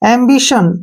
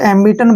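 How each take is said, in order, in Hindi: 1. बीच वाली ध्वनि 'sh' जैसी लगती है। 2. बीच वाली ध्वनि सादी 't' जैसी लगती है। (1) "टी आई ओ का उच्चारण श के रूप में करेंगे" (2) "कई बार क्या बोलते हैं इसको एम्बिटन बोलते हैं, तो वो गलत है"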